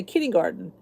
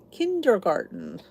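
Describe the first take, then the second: First: Kindergarten quickly as "kinnygarden"; regional pronunciation. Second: Kindergarten slowly, the "der" clearly sounded; standard pronunciation. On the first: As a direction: slur kindergarten into "kinny-garden". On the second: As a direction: say Kindergarten carefully, all four syllables. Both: Shown as a demonstration. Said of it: "Some people say kindergarten".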